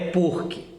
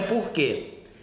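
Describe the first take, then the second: First: The stress is on the first syllable. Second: The stress is on the second syllable. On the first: The speaker calls it right. "a sílaba mais forte deveria ser por e não que" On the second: The speaker calls it wrong. "as pessoas dizem ser porquê, mas não é porquê"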